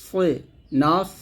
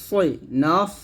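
The two takes are said the same way.

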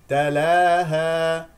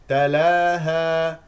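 The two takes are said the same way.

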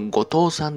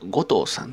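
First: The pitch stays level without an early accent. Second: The pitch is high on the first syllable. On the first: This is the general pronunciation. "一般ですと後藤さんっていうものを" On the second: This is the Oita pronunciation. "大分では後藤さんというふうに今呼ぶイントネーションがあるのかなと"

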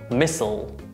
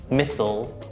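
First: It is said with American pronunciation. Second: It is said with American pronunciation.

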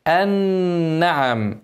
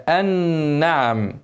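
No difference in how they are said.

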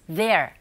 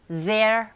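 The two takes are said the same way.

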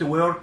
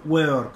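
First: It is said in an American accent. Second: It is said in a British accent.

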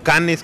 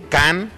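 First: The name is said with a Mexican Spanish pronunciation. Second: The name is said with a French-style pronunciation.

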